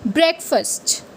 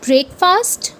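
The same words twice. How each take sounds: First: Breakfast as brek-fuhst; the correct breakfast. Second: Breakfast as brake-fast; the mistaken breakfast; wrong way. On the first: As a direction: say breakfast with a weak second part. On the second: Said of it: "you say it as". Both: Shown as a demonstration.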